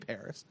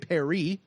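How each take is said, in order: First: It is pronounced the English way, with final s. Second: It is pronounced the French way, without final s. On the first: "We say, we say Paris" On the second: "We don't say Paris"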